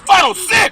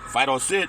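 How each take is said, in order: First: The command is said in a loud voice. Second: The command is said in a quiet voice. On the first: The dog obeys the command. The speaker calls it right. "then Fido will listen" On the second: The dog ignores the command. The speaker calls it wrong. "Fido doesn't listen"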